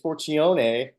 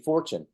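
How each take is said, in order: First: The surname is said in an Italian-sounding way. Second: The surname is said like the English word fortune. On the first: The speaker calls it wrong. "everybody wants to say it's Forcione" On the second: The speaker calls it right. "but it's actually Fortune"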